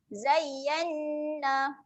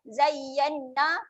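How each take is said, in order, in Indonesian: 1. Bunyi sengau n ditahan sebentar. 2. Bunyi sengau n diucapkan cepat dan pendek. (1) "Tekan sekejap dua harakat" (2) "Jangan lajukan"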